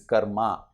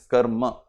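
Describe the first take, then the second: First: It is said with an English-style vowel. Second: It ends with a full ma syllable. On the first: The speaker calls it wrong. "the English distortion" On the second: The speaker calls it right. "The ma is full"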